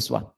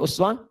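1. Kata ini diawali dengan vokal 'i'. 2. Kata ini diawali dengan vokal 'u'. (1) "riwayat Qalun Warash dari Nafi' bisa dibaca dengan iswah" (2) "uswah itu dalam riwayat Hafs"

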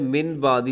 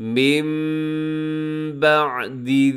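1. पहले शब्द का अंत एक सादे n की ध्वनि से होता है। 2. पहले शब्द का अंत एक नासिकीकृत m की ध्वनि से होता है। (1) "यहाँ लफ्ज़ है मिन बादी" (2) "नून को मीम के साथ तब्दील कर देते हैं"

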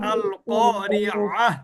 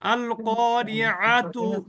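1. এই বাক্যাংশটি ছোট 'হ' ধ্বনি দিয়ে শেষ হয়। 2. এই বাক্যাংশটি পূর্ণ 'ত' ধ্বনি দিয়ে শেষ হয়।

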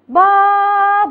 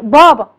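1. تُقال الكلمة بطريقة مبالغ فيها. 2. تُقال الكلمة بطريقة طبيعية. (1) "ما اقولش بابا، هو ما بتتقالش كده" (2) "اقول الكلمات زي ما هي بواقعها"

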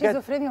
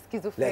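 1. تبدأ الكلمة بصوت sh. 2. تبدأ الكلمة بصوت sk. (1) "شيزوفرينيا بجد؟" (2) "لا سكيزوفرينيا طبعا"

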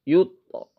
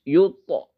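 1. Pantulan pada t terdengar ringan dan alami. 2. Pantulan pada t terdengar ringan dan alami.

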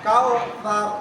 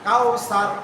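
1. মাঝের ব্যঞ্জনটি একটি নরম th ধ্বনি। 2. মাঝের ব্যঞ্জনটি একটি শীষের s ধ্বনি। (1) "সঠিকটা হবে কি কাউ তার" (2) "এভাবে আমাদের হয়ে যায়"

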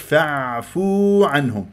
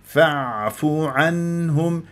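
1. الحركة بعد الفاء ممدودة. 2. الحركة بعد الفاء قصيرة. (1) "مش فاعفو عنهم" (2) "ليس مدا طبيعيا، فاء مضمومة فقط"

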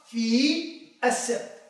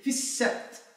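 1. تُنطق كل كلمة كاملة ومنفصلة. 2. تندمج الكلمتان، فتُحذف الحركة والأداة. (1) "في الأصل" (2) "بالتنغيم الطبيعي، بالحديث الطبيعي"

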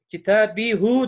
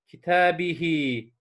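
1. Kelime u ünlüsüyle biter. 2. Kelime i ünlüsüyle biter. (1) "Kitabihu geçiş çok zor oluyor" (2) "Mesela kitabihi"

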